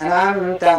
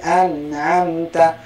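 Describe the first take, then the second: First: The n sound is clipped short and hurried over. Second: The n sound gets one nasal beat, not held. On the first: The speaker calls it wrong. "atau dipercepat" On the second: The speaker calls it right. "tapi an'amta, artinya tetap mendapatkan hak satu ketukan"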